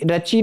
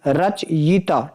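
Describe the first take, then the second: First: रचि with a ringing final i; wrong pronunciation. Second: रचयिता slowly, rach... yi-taa; corrected pronunciation. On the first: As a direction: say रचि as ra-chee. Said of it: "रचि नहीं". (रचि में 'ची' बोलें) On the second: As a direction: split and stretch रचयिता at the y. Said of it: "ध्यान रखना". (रचयिता को धीरे 'रच-यिता' बोलें) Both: Shown as a demonstration.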